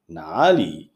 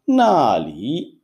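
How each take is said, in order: First: The first syllable has a low dipping tone. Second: The first syllable has a sharp falling tone. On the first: It is the question word meaning where. "עם הטון השלישי" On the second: It means there, not a question. "עם הטון הרביעי במילה הראשונה"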